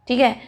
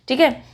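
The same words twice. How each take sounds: No difference in how they are said.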